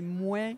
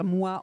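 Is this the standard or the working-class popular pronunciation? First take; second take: working-class; standard. First: It uses the popular working-class pronunciation. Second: It uses the standard pronunciation of the word. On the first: "on dit moi" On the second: "au lieu de dire moi"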